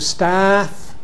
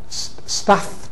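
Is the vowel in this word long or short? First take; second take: long; short. First: The vowel is lengthened. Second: The vowel is short. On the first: This is the later pronunciation. "turns to staff" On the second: This is the older pronunciation. "you get lengthening only"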